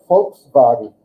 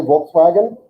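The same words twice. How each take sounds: First: "Volkswagen" as "folks-vagen"; German pronunciation. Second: Said in the usual way. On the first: Shown as a demonstration. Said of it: "but Germans say Volkswagen". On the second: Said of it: "We say Volkswagen".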